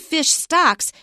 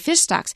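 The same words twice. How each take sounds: First: The stress falls on the word stocks. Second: The stress falls on the word fish. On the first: It means stocks that belong to the fish. The speaker calls it wrong. "it sounds like they are buying stocks" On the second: It is a compound meaning fish populations. The speaker calls it right. "It's a compound, so we say fish stocks"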